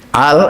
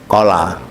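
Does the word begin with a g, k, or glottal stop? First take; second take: glottal stop; k. First: The word begins with a glottal stop. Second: The word begins with a k sound. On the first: This is how Egyptians say it. "Misalnya yang Mesir itu kof diwaca a" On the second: This is the standard form. "Al itu kola"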